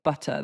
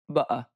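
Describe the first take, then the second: First: The 't' in the middle is pronounced. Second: The 't' in the middle is dropped. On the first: "instead of" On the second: "they say"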